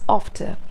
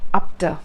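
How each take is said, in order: First: The f is a clean, smooth sound. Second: The f has a puffed, p-like sound. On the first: The speaker calls it right. "This is after" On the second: The speaker calls it wrong. "It's not after. It shouldn't be per sound"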